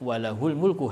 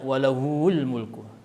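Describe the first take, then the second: First: The pronoun vowel 'hu' is held short. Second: The pronoun vowel 'hu' is drawn out long. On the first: The speaker calls it right. "Haknya dibaca pendek" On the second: The speaker calls it wrong. "Tidak boleh dibaca walahul mulku"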